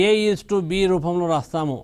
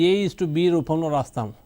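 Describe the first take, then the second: No difference in how they are said.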